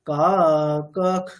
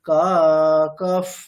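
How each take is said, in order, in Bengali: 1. শেষের শ্বাসটি একটি মৃদু kh-এর মতো শোনায়। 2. শেষের শ্বাসটি একটি মৃদু ph-এর মতো শোনায়। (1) "পরে ক আছে, সেই অনুযায়ী" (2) "প থাকলে ফ"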